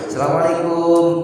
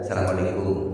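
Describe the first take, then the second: First: The greeting is said high and loud. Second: The greeting is said low and quiet. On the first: "pertama nadanya tinggi" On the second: "Yang ketiga lebih rendah"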